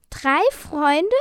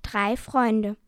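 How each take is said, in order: First: High, loud, rising question; astonished. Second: Said in the usual way. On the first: A narrator's reading. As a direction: echo it in amazement. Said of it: "fragten die Drachen verwundert". (verwundert nachgefragt, Stimme steigt)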